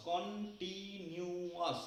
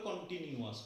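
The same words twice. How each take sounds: First: continuous very slowly broken up, কন-টি-নিউ-য়াস; syllable by syllable. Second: Said in the usual way. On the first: Shown as a demonstration. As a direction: stretch and separate every syllable of continuous. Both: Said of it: "ভেঙে ভেঙে বলছি".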